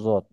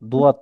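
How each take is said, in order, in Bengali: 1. প্রথম ধ্বনিটি নরম, z এর দিকে ঝোঁকা। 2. প্রথম ধ্বনিটি একটি শক্ত d ধ্বনি। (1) "একটু নরম করে যত এরকম উচ্চারণ হচ্ছে যত" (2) "দুয়াত যেটা আমরা বলি সেটা হচ্ছে ভুল"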